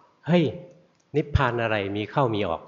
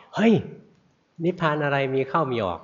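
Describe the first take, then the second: First: Retold scolding, only the first word truly raised; snapped rebuke. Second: Higher-pitched retold rebuke held over the whole line; louder scolding. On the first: Old master monk scolds the meditating student, mild mock snap. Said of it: "โดนท่านตะคอกเอา". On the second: Monk scolds the student harder the second time, mock shout. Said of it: "คราวนี้ตวาดดังกว่าเก่า".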